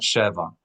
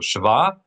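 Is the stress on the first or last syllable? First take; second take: first; last. First: The stress is on the first syllable. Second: The stress is on the last syllable. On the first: The speaker calls it wrong. "and not sheva" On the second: The speaker calls it right. "we're going to accent the last syllable"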